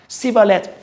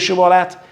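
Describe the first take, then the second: First: The word begins with an 's' sound. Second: The word begins with a 'sh' sound. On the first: The speaker calls it wrong. "Não podendo pronunciar corretamente" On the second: The speaker calls it right. "Então diga Shibolete"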